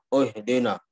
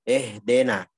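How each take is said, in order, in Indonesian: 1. Vokal pertama tebal, seperti o. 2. Vokal pertama terlalu tipis, seperti e. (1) "menjadi o" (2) "terlalu tipis sehingga dia malah mengarah kepada imalah"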